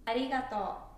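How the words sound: It is said with a Tokyo accent.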